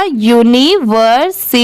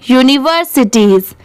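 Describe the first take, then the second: First: यूनिवर्सिटीज in separated pieces, yu-ni, ver, si, teez; syllable-by-syllable reading. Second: Said in the usual way. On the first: Shown as a demonstration. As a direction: sound out यूनिवर्सिटीज part by part. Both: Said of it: "अब इसे साथ में मिला देंगे".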